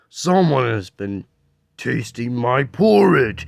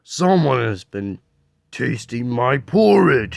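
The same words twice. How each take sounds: First: It is said in a deep, gruff voice. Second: It is said in a deep, gruff voice.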